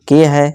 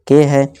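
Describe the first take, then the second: Both takes have the same delivery.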